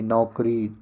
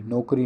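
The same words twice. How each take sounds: First: नौकरी with an open au, "naukri"; correct au vowel. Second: नौकरी said as "nokri"; plain o at the start of नौकरी; wrong o vowel. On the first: Teacher gives the right spelling, open au in नौकरी. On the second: Teacher rejects a spelling, "nokri" with plain o. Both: Shown as a demonstration. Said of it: "नौकरी नहीं".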